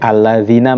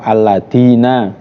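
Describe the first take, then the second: First: The consonant is a soft 'th' sound. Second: The consonant is a hard 'd' sound. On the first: The speaker calls it right. "mengganti zal" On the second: The speaker calls it wrong. "atau dengan dal"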